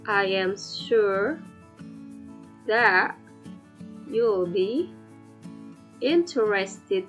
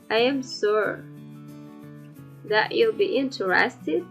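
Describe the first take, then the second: First: The sentence is spoken slowly. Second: The sentence is spoken quickly.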